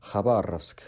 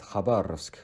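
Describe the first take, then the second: First: It is pronounced the Russian way. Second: It is pronounced the Russian way.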